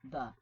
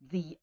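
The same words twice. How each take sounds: First: The vowel is a reduced 'uh' sound. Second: The vowel is a full 'ee' sound. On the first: "because it starts with a consonant, it's going to be the" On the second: "if it is followed by a vowel, a word that starts with a vowel, then it will be the old"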